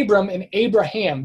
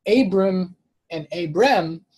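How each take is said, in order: First: AY-brum and AY-bruh-ham for Abram and Abraham; familiar pronunciations contrasted. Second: Abram and Abram slowly, AY-brum then ay-BREM; slow Abram, then Abram with an "-em" ending; nearly identical names. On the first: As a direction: say Abram and Abraham the common way, clearly different. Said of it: "they sound completely different". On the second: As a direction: say Abram twice, only the last vowel changed. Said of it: "they sound nearly identical". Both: Shown as a demonstration.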